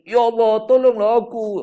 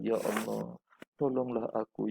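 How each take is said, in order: First: It is shouted loudly. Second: It is said in a low, soft voice. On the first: The speaker calls it wrong. "Jangan kita jerit" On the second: The speaker calls it right. "rendahkan suara"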